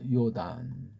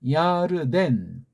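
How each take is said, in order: First: The name begins with 'yo' and has two syllables. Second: The name begins with 'ya' and has three syllables. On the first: The speaker calls it wrong. "이건 엉터리 쪼, 쪽발이 발음이에요" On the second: The speaker calls it right. "우린 하잖아요. 야르덴"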